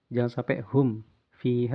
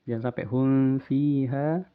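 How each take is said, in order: No difference in how they are said.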